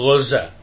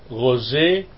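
First: The final vowel is an open a sound. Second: The final vowel is tilted toward e.

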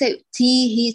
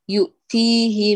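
First: The t is released with a strong puff of air. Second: The t is released without a puff of air. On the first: The speaker calls it wrong. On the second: The speaker calls it right.

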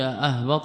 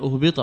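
First: The word begins with an 'a' vowel. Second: The word begins with a 'u' vowel. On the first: The verb is active; the doer is implied in it. "بفتح الهمزة" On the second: The verb is passive; the doer is left unnamed. "بضم الهمزة لبنائه للمفعول"

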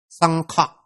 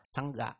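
First: The second syllable starts with an aspirated kh. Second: The second syllable starts with a plain g. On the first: The speaker calls it right. "Nó là xăng khọ" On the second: The speaker calls it wrong. "Còn không biết á, hoặc đọc xa sẽ là xăng gà"

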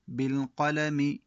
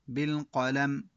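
First: The word ends with its full final vowel. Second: The word stops without its final vowel. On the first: The word runs on into what follows. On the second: The reader pauses on this word.

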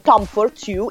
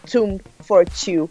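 First: The first word sounds like the name Tom. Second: The first word sounds like the word tomb. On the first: The speaker calls it wrong. "da persona incapace lo pronunciavo come Tom for Two" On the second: The speaker calls it right. "in realtà è Tomb for Two"

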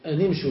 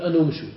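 First: The linking vowel after the n is i. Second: The linking vowel after the n is u. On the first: The speaker calls it right. "تقول أن امشوا بالكسر" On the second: The speaker calls it wrong. "ولا تقول أن امشوا"

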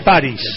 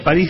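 First: The stress is on the first syllable. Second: The stress is on the second syllable. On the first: It refers to the mythical character. "del personaje mítico" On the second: It refers to the city. "la ciudad"

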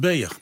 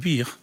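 First: The vowel is an ee-like sound. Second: The vowel is an ie sound. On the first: This is the dialect form. "wordt beer" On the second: This is the standard Dutch form. "dus bier"

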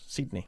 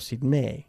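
First: It is pronounced with English-style sounds. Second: It is pronounced with Spanish-style sounds. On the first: The speaker calls it right. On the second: The speaker calls it wrong.

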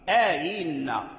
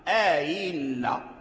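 Both takes have the same delivery.

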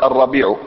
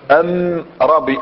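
First: The article is pronounced 'al' before the noun. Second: The article is pronounced 'am' before the noun. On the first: This is how the standard language marks definiteness. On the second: This is how the Himyar dialect marks definiteness.

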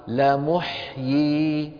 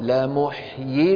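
First: It stands alone, ending in a held final y. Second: It runs straight into the following word. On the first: This is how it is said when stopping on it. "لو اضطررنا ماذا نقول؟" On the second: This is how it is said when reading on. "أما في الوصل"

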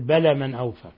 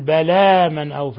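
First: The long vowels are clipped short. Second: The long vowels are held for their full length. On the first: The speaker calls it wrong. "يقول بلى من أوفى" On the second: The speaker calls it right. "بدل ما يقول بلى من أوفى"

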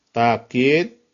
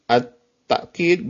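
First: The first vowel is a long a. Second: A glottal stop follows the first vowel. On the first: "takid bil alif" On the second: "yang kedua at-ta'kid bil hamzah"

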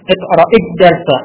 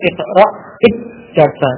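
First: The consonant is short, a single letter. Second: The consonant is held long, like a doubled letter. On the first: The speaker calls it right. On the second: The speaker calls it wrong. "jangan sampai terucap dua huruf tadi, seperti bacaan tasjid tadi"

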